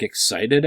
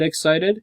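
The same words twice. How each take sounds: First: Said in the usual way. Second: Excited raised high with a questioning rise; stress on excited. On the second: Shown as a demonstration. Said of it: "Like, excited".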